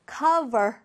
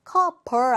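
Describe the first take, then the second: First: "cover" with a clearly buzzed V in the middle; clear V sound. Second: "cover" mispronounced with a hard B or P, like "co-ber"; B instead of V. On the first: Teacher models "cover" for students, with a clear V sound. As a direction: say "cover" with V, lip on teeth, never B. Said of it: "V의 발음을 살려서 발음해보세요". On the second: Teacher shows students the mistake, "cover" said with B for V. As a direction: swap the V in "cover" for a stopped B. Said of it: "B 아니고 V니까요". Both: Shown as a demonstration.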